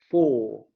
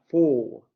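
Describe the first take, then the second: No difference in how they are said.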